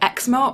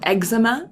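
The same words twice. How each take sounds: First: It is said with a British pronunciation. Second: It is said with an American pronunciation.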